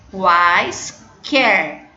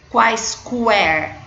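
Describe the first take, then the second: First: The u after the q is silent. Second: The u after the q is pronounced. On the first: The speaker calls it right. "O U não é pronunciado" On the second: The speaker calls it wrong. "Nós não falamos quaisquer"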